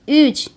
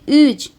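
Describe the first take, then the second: The two takes are said the same way.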